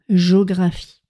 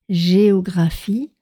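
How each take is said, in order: First: The vowel é after the g is dropped. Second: The vowel é after the g is clearly pronounced. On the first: The speaker calls it wrong. "On ne dit pas géographie" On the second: The speaker calls it right. "on prononce bien E"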